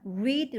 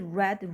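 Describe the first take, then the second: First: The vowel is long, like 'reed'. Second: The vowel is short, like 'red'. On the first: The verb is in the present tense. "현재" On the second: The verb is in the past tense. "과거"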